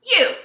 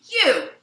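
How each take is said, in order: First: Put-on very high, loud kid's echo; boy mimicking old man. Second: Loud, sharply falling exclamation; grumpy old man. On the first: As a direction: shout it back in mocking imitation, much higher. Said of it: "mimicking him". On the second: Retold or imitated. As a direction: burst out like a cross old man. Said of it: "the old man goes".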